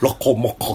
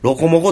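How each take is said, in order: First: The consonants are said with exaggerated popping bursts. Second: The consonants are said plainly, without extra burst. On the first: This is how another person habitually says it. The speaker calls it wrong. "その破裂音出すなよ" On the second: This is the ordinary way to say it. The speaker calls it right. "普通に言うて"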